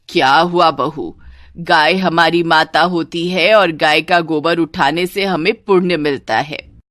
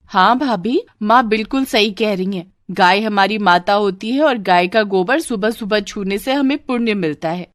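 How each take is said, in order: First: Preachy mother-in-law. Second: Agreeing sister-in-law. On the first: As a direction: lecture the bahu on holy duty. (उपदेश देती सास) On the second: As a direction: back up mother to the bhabhi. (माँ की हाँ में हाँ मिलाती ननद) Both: Acted.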